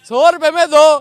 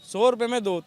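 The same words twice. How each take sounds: First: It is called out at a loud volume. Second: It is called out at a soft volume. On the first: "बोलने को तो हम तेज बोल देंगे।" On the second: "इतनी कम आवाज"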